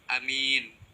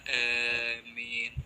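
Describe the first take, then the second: First: The first vowel is short and m is single. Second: The long first vowel leans toward an e sound. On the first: "membaca pendek alifnya" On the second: "membaca panjang alifnya disertai imalah"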